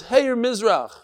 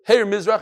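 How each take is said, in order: First: Hey, Mizrach as a statement, falling at the end; announcing call. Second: Hey, Mizrach as a raised, louder question; questioning call. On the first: Same words as the roof man's statement. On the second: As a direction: ask "Hey, Mizrach" with the end left open. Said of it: "he's asking a question". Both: Acted.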